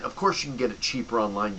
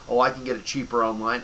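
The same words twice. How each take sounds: First: Said in the usual way. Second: Mock customer. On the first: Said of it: "his retort". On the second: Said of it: "And also the whole".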